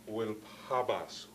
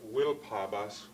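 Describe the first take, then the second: First: The main stress falls on the second word. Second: The main stress falls on the first word. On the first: The speaker calls it right. "secondary stress, primary stress" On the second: The speaker calls it wrong. "which would be pronouncing it in an English type way"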